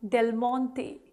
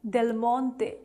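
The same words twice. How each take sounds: Both takes have the same delivery.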